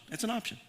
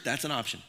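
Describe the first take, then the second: First: "That's an option." repeated higher and soft with a rise; higher, quieter teasing repeat; high playful echo. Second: Said in the usual way. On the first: Shown as a demonstration. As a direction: toss "That's an option." back lightly, lifted up.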